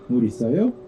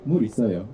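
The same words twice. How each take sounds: First: The pitch rises at the end. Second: The pitch falls at the end. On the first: It asks whether there is water. "you just raise the tone at the end of the sentence and it becomes a question" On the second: It states that there is water. "물 있어요 is a statement"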